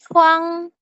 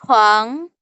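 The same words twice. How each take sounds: First: The syllable is said in the first tone. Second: The syllable is said in the second, rising tone. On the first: "yang pertama contohnya itu huang" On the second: "nada kedua itu dia naik ke atas"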